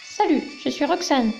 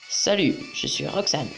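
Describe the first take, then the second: First: It is said in a put-on girl's voice. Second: It is said in his normal voice.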